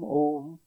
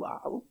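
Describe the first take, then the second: First: The vowel is one steady O sound. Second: The vowel glides through two sounds, A then U. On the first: The speaker calls it right. "Just Om, Om" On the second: The speaker calls it wrong. "they go on saying Aum, Aum. Try to be precise. That's not correct"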